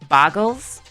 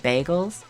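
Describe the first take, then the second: First: The first syllable sounds like 'bar'. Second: The first syllable sounds like 'bay'. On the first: Someone else says it this way. The speaker calls it wrong. "how Northern Line says bargles" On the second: This is the usual way to say it. The speaker calls it right. "I don't know why he doesn't just say bagels"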